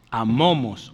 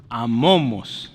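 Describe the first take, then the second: First: Said in the usual way. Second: Amomos said slowly and carefully, a-mo-mos; slow pronunciation. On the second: Shown as a demonstration. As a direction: spell out amomos slowly for the class, stress on mo. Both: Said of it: "se pronuncia como M".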